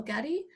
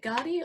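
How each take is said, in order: First: "Gadi" with a short first vowel, like "GADD-ee"; alternative pronunciation. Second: "Gadi" with a long open first vowel, like "GAR-dee"; alternative pronunciation. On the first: Host offering another reading of a questioner's name, "Gadi" said as GADD-ee. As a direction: say "Gadi" to rhyme with "daddy". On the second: Host checking a questioner's name, "Gadi" said as GAH-dee. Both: Shown as a demonstration. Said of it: "is it Gadi or Gadi".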